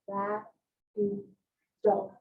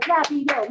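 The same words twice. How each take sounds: First: Rapido very slow, split into ra, pi, do. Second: Rapido said quickly in one run, slightly raised; rushed. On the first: Shown as a demonstration. Teacher shows pupils the syllables in Rapido, slowed down. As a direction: stretch Rapido syllable by syllable, with gaps. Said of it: "Slow down". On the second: Retold or imitated. Teacher imitating kids who rush the word, rushed. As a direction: rush Rapido out without separating syllables. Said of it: "Slow down, slow down".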